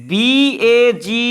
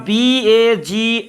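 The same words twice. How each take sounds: No difference in how they are said.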